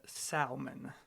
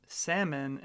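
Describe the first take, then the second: First: SALMON said "SAL-mon" with the L sounded; salmon with a clearly voiced L; pronunciation demo. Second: SALMON said "SAM-un", silent L; salmon with a short A and no L; pronunciation demo. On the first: The wrong way, set against first. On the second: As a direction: say salmon as "sammon". Contrasting two ways of saying salmon. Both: Shown as a demonstration.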